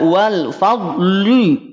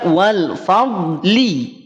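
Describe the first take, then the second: First: The final syllable is said thick and heavy. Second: The final syllable is said thin and light. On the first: The speaker calls it wrong. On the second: The speaker calls it right.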